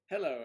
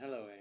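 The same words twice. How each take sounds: First: It is said in the speaker's normal voice. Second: It is said in a deeper voice.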